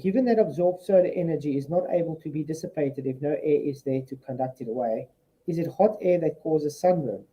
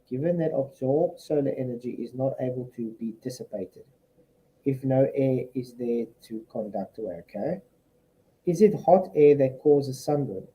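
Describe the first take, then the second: First: It is read at a normal pace. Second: It is read slowly.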